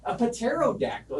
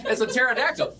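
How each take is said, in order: First: "pterodactyl" with the P voiced, puh-TERRO-dactyl; sounded P. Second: Said in the usual way. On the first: Shown as a demonstration. Teacher explaining Greek wing-finger, "pterodactyl" with its P pronounced. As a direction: break "pterodactyl" into Greek parts, puh-tero plus dactyl.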